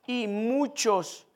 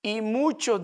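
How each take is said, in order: First: Muchos drawn out slowly; slowed, weighted muchos; slow stress on muchos. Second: Said in the usual way. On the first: Shown as a demonstration.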